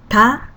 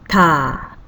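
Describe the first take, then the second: First: The vowel is held briefly. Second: The vowel is held twice as long.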